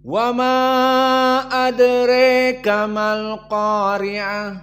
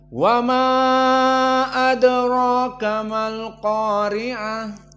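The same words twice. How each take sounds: First: The vowel after r in adraka leans toward 'e'. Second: The vowel after r in adraka is open 'a'. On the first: "al-imalah yang diinginkan adraka menjadi adreka" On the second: "adraka-nya di sini dalam keadaan fathah, tidak al-imalah"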